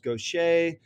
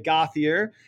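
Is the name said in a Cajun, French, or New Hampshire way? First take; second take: Cajun; New Hampshire. First: The name is said with a Cajun French pronunciation. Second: The name is said the usual New Hampshire way. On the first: This is the family's own Louisiana form. The speaker calls it right. "a Cajun French perversion of Gauthier becomes Gaucher" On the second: This is how locals usually say it. The speaker calls it wrong. "normally in New Hampshire, people will say Gauthier, and this hurts my heart"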